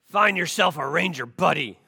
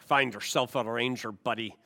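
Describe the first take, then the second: First: It is said in a gruff drill-sergeant voice. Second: It is said with a Scottish-sounding accent.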